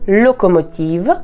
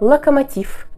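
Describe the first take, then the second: First: Every o is full and it ends in v. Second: Some o's are reduced and it ends in f. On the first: This is the French pronunciation. "Chaque O ressemble à un O. Le V à la fin ne s'assourdit pas" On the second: This is the Russian pronunciation. "Certaines lettres O disparaissent, ... et le V à la fin s'assourdit"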